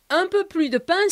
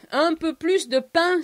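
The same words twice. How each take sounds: First: Paris-style "plus" with the S silent; "plus" ending on its vowel, Paris way; Paris pronunciation. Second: Southern-style "plus" with the S sounded; "plus" ending in a clear S; southern pronunciation. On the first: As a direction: say "plus" as "plu", no final S. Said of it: "that would be the Paris way of saying things". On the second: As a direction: say "plus" as "plooss", final S pronounced. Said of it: "where we pronounce the S". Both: Shown as a demonstration.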